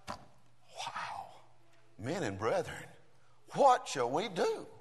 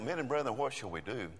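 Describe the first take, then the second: First: It is said with passionate desperation. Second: It is said in a casual, offhand way.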